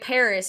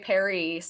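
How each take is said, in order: First: It is said with English pronunciation. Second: It is said with French pronunciation. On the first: The speaker calls it right. "you say Paris" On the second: The speaker calls it wrong. "you don't say Paris"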